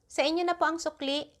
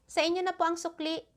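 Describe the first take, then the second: No difference in how they are said.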